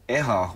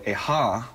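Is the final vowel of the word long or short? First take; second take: short; long. First: The final vowel is short. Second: The final vowel is held long. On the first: It means pain or being hurt. "Eha with no lines over the A, no kahakos, refers to pain" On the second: It means the number four. "eha with the line over the A means the number four"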